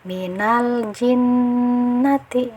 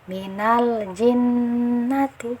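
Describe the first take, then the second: Both takes have the same delivery.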